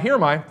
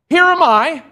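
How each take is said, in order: First: The phrase is said quickly and casually. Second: The phrase is said slowly and deliberately. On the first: The offer is casual and offhand. The speaker calls it wrong. "I don't believe he said it quickly. I don't believe he said it just, yeah" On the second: The offer is earnest and wholehearted. The speaker calls it right. "I believe that Isaiah said it this way"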